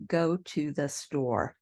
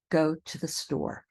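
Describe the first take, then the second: First: "Go to the store" slowly, with a full "too"; unsquished pronunciation. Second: "Go to the store" with "to the" reduced to "tuh thuh"; squished little words. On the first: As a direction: give every word in "Go to the store" equal, full weight. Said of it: "We don't say". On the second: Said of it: "little words in between get squished". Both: Shown as a demonstration.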